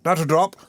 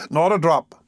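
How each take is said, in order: First: Said in the usual way. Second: Slow, chuckling "not a drop"; mock refusal with a laugh. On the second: A narrator's reading.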